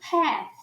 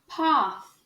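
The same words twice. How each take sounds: First: American accent, with a vowel close to 'e'. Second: British accent, with a broad open 'a' vowel. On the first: "esse A aqui está sendo falado como E" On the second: "no sotaque britânico... o A continua como A"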